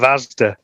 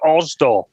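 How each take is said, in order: First: It is said in a standard accent. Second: It is said in a local Leicester accent.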